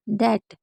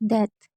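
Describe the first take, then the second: First: The first sound is like a 'd' sound. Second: The first sound is a breathy 'th' sound. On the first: The speaker calls it right. "दा ही पढ़ेंगे" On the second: The speaker calls it wrong. "ये गलत है"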